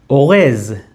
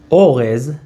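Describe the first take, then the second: First: O-REZ, weight on the second syllable; stress on last syllable. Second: O-rez, weight on the first syllable; stress on first syllable. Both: Shown as a demonstration. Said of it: "different meaning depending on the stress".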